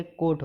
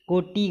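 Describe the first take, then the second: First: कोट stopping on t; no final vowel. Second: कोटि ending in "ti"; wrong added i. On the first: Teacher correcting students, one-syllable कोट. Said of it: "होता है". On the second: Teacher showing the error, two-syllable कोटि. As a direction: add an i after t in कोटि. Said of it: "गलत है". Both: Shown as a demonstration.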